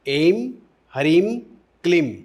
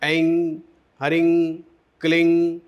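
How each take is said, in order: First: The syllables end in a closed m sound. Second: The syllables end in a nasal ng sound.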